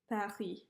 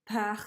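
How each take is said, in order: First: The p is released without a puff of air. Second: The p is released with a puff of air. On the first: The speaker calls it right. "it's more like" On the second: The speaker calls it wrong. "instead of"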